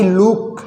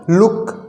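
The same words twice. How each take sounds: First: लुक with the u stretched to a long oo; लुक mispronounced with a long oo; wrong long vowel. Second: लुक with a short u; लुक cut short, not drawn out to "look" with long oo; short vowel. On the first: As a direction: draw out the vowel in लुक as "looook". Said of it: "ना कि लुक बोल रहा है". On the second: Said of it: "इसका उच्चारण थोड़ा सा छोटा हो रहा है". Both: Shown as a demonstration.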